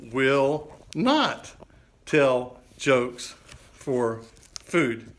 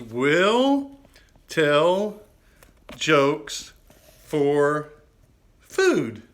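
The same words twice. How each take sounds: First: "Will not tell jokes for food" read very slowly, word by word; teasing reveal of the joke sign. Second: Loud, high, drawn-out sign reading; proud showman reading his own sign; reading the sign aloud. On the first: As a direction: spell out the new sign slowly and deliberately. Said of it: "and it says, can you read that?". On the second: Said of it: "It says". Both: Shown as a demonstration.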